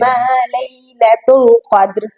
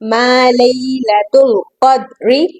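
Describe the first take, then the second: First: The last word ends on a bare consonant. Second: The last word ends with a short vowel. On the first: The reciter stops at this word. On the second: The recitation continues without stopping.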